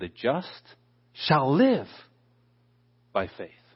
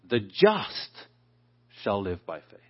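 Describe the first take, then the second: First: The stress is on the word live. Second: The stress is on the word just.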